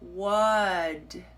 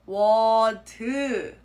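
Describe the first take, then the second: First: The final consonant ends with a tiny released sound. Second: The final consonant becomes a whole extra syllable. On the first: "tiny little escaping sound at the end" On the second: "pronounce it as a whole new syllable"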